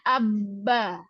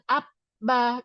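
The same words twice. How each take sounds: First: The doubled b is held as one smooth sound. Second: The doubled b is broken, sounding like p then b. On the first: The speaker calls it right. "Misalnya abba" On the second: The speaker calls it wrong. "bukan abba. Kalau abba berarti jadi P B"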